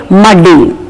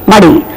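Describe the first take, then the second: First: "muddy" with a stressed double D; wrong doubled D. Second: "muddy" with one light D; don't double the D in "muddy"; correct single D. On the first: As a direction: lean on the DD in "muddy". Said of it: "we are not supposed to say". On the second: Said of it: "We are supposed to say". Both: Shown as a demonstration.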